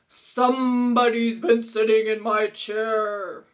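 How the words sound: It is said in a big, deep Papa Bear voice.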